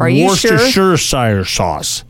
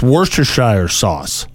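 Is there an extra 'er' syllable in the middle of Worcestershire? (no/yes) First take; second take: yes; no. First: An extra 'er' syllable is added mid-word. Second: The word has no extra middle 'er' syllable. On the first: The speaker calls it wrong. "You said Worcestershire sauce is what you said" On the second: The speaker calls it right. "It's just Worcestershire sauce"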